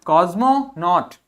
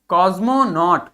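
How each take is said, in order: The two takes are said the same way.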